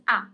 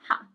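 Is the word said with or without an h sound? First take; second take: without; with. First: It begins with a vowel, no h sound. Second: It begins with an audible h sound. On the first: The speaker calls it right. "you don't pronounce it. It's a" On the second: The speaker calls it wrong. "it's not ha"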